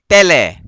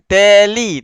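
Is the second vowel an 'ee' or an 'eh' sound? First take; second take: eh; ee. First: The second vowel is an open 'eh' sound. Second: The second vowel is a close 'ee' sound. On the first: The speaker calls it right. "tapi tele" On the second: The speaker calls it wrong. "bukan teli"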